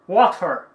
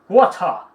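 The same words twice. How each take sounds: First: American accent, with the R sound pronounced. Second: British accent, with no R sound at all. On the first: "Inglês americano" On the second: "Inglês britânico, da Europa. O som de R não soa"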